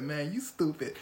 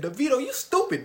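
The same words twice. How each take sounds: First: Said in the usual way. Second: Mock insult. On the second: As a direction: yell the insult across. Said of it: "He said".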